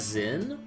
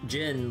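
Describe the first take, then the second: First: The name begins with a Z sound. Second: The name begins with a J sound. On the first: This is how the original game says it. "like the O G, as Zin" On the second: This is how the newer game says it. "they pronounce it like just Jin"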